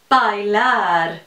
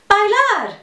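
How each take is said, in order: First: The word is said at a normal pace. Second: The word is said very quickly.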